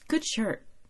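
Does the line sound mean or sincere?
sincere. It sounds sincere and not insulting.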